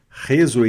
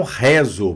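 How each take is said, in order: First: Réseau with a closed, acute é. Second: Réseau with a wide open e in the first syllable; wrong open e. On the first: Teacher showing learners the sound, closed é in "Réseau". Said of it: "som fechado". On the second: Teacher showing learners the mistake, open e in "réseau". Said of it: "e não réseau". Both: Shown as a demonstration.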